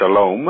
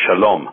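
First: The O vowel is drawn out long. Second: The O vowel is kept short. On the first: This is the American way of saying it. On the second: This is the Israeli way of saying it. "as opposed to shalom"

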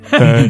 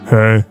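First: It is said with intense passion. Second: It is said calmly, with less passion.

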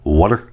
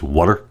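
Both takes have the same delivery.

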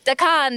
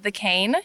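First: The word is said in a thick accent. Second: The word is said in a plain accent. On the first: "Ramon has this really thick accent" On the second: "instead of saying, like, the cane"

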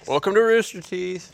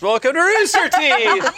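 First: It is said in a flat, bored tone. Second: It is said in a livelier, enthusiastic tone.

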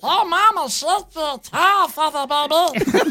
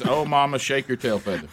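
First: It is said in a squeaky helium-like voice. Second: It is said in a normal speaking voice.

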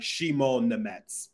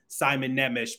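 First: The names start with 'sh' and end with 'ets'. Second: The names start with 's' and end with 'ish'. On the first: The speaker calls it right. "It's Shimon Nemets" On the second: The speaker calls it wrong. "were saying Simon Nemish, because that's how it was announced at the draft"

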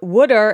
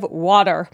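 First: It is said in a Philadelphia accent. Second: It is said in a standard accent.

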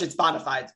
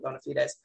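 First: It is said with an anglicized English pronunciation. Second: It is said with a Latin-style pronunciation. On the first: The speaker calls it wrong. "It's like in English, it's bona fides" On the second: The speaker calls it right. "but it is actually bona fides"

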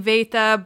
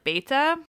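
First: The word begins with a V sound. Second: The word begins with a B sound. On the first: This is the modern Greek pronunciation. "in modern Greek is pronounced like a V" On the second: This is the ancient Greek pronunciation. "the Greek B, like beta"

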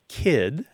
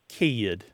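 First: The vowel is short and single. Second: The vowel is stretched into a glide.

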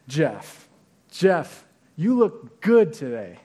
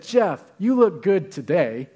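First: The word today is not given special stress. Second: The word today is given special stress. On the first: A simple compliment on the person's look. "That communicates one thing" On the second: The person does not usually look good. "do I not look good most of the time?"

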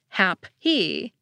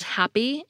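First: The P has a puff of breath. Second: The P has no puff of breath. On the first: It sounds like a pair of words. The speaker calls it wrong. "If we aspirated them" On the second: It sounds like one single word. The speaker calls it right. "we get unaspirated P and K"

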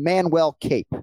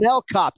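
First: The surname has an 'ape' vowel, like cape. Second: The surname has an 'op' vowel, like cop. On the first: The speaker calls it wrong. "You called him Manuel Cape" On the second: The speaker calls it right. "Can we go Manel Cop?"

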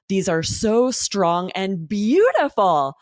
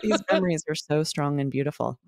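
First: The pitch moves up and down a lot. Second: The pitch stays almost level throughout. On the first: The speaker sounds moved by happy memories. The speaker calls it right. "the amazing intonation" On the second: The speaker sounds uninvolved. The speaker calls it wrong. "Now imagine if she was using a monotone, how strange this would be"

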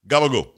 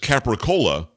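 First: Italian-American pronunciation with the final vowel cut off. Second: Standard pronunciation with the final vowel said.

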